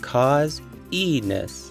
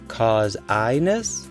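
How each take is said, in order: First: The middle vowel is a long E sound. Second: The middle vowel is a long I sound. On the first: "I then try the long E sound" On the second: "Long I"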